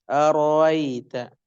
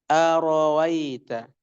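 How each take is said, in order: No difference in how they are said.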